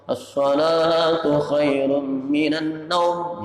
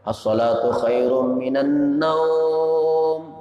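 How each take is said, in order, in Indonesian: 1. Vokal pada kata terakhir dibaca pendek. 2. Vokal pada kata terakhir dibaca panjang. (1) "di Makkah itu handap" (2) "Boleh panjang"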